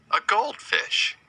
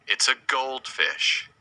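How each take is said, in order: First: Much higher and slower, sing-song; delighted high "A goldfish"; excited high repeat. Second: Said in the usual way. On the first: Shown as a demonstration. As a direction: lift "goldfish" way up for the kids.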